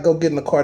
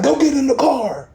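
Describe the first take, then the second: First: Calm inner voice. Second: Higher-pitched bossy "Go get in the car"; mock loud command. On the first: Retold or imitated. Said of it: "it wasn't no loud voice". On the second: Showing how God's voice did not sound, mock bossy command. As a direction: bark out "Go get in the car" like an order, pitched high. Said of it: "It wasn't no, like".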